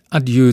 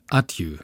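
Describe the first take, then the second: First: The stress is on the last syllable. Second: The stress is on the first syllable. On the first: It is the standard form. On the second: It is the regional dialect form.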